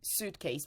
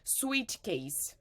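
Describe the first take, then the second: First: It is said with a standard English vowel. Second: It is said with a Brazilian-style vowel. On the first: The speaker calls it right. "I say this way" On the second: The speaker calls it wrong. "many Brazilians say suitcase"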